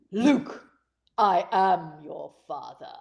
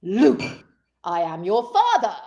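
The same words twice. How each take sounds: First: Low, slow menacing Vader reading; Darth Vader impression. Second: "Luke" called out loud, then "I am your father" firm; a bolder variant of the Vader line; louder Vader take. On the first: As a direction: drop deep and drag it out like Vader. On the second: Retold or imitated. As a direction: bark the name "Luke" before the line. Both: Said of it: "he could have said it like this".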